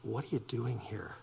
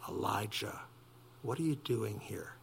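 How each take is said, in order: First: Much softer, tender and hushed; soft tender question; gentle, soft voice. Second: Much softer, a hushed gentle call; the still small voice, softly. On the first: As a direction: ask it as quietly as a comforting God. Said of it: "in a gentle, soft voice". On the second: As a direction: speak it like a gentle whisper of God. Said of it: "A soft and gentle voice said". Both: Acted.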